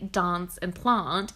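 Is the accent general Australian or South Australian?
South Australian. It is said with a South Australian accent.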